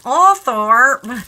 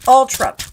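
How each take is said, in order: First: The name is said in an American accent. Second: The name is said the British way, "Altrop."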